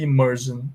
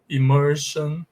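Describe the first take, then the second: First: The ending is said with a 'zh' sound. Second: The ending is said with an 'sh' sound. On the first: The speaker calls it right. "é pronunciado com som de jan" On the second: The speaker calls it wrong. "se vocês tomarem isso aqui como uma regra geral e absoluta, vocês vão falar assim"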